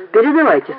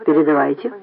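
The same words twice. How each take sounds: First: Said in the usual way. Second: Understated cold reply. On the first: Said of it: "сказал Поль". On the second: A narrator's reading. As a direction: give permission coolly, without lift. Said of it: "холодно сказал Поль".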